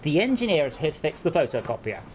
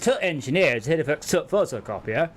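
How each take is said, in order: First: The word 'the' is said in full. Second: The word 'the' is reduced to a 't' sound. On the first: This is how people say it further south. "here, where you are, it is" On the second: This is how people say it further north. "North of me, it's"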